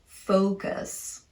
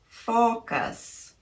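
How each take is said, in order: First: The first vowel is a rounded, dark long O. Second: The first vowel is a short, pure O.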